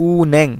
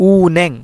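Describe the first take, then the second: Both takes have the same delivery.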